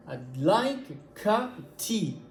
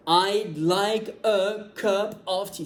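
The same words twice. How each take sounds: First: Slow beats on "like", "cup", "tea"; slowed English rhythm. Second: Every word of "I'd like a cup of tea" slow, high and equally stressed; wrong word-by-word delivery. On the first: Teacher slows the model for learners, beats on "like cup tea". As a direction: draw out "like cup tea", barely touch "a" and "of". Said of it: "la rythmique, c'est le fait de faire". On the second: Teacher shows what not to say, "a cup of tea" evenly plodded. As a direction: hammer "a" and "of" as hard as "tea". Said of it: "C'est pas comme ça qu'on parle". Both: Shown as a demonstration.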